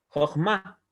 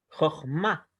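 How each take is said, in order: The two takes are said the same way.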